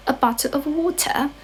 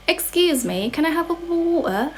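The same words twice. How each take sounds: First: Higher-pitched British accent, words completed. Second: High-pitched mock British with dropped T's; British accent. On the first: Completing the demo sentence for viewers, fuller British accent. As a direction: say it British, finishing "bottle" and "water". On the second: Asking for a drink as a Brit for the viewers, mock British accent. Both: Shown as a demonstration. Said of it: "how to say in British accent".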